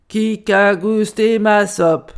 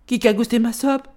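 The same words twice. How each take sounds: First: Loud, slow big-bear roar; big bear's outcry. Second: Lightly voiced middle bear, brisker questioning cry; a mild exclamation as the middle bear; middle bear's outcry. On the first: Grand Ours finds his soup tasted, loud indignant outcry. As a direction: boom it out word by word. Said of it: "s'escria Grand Ours". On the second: Médio Ours echoes the big bear, milder outcry. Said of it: "s'escria à son tour Médio Ours". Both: A narrator's reading.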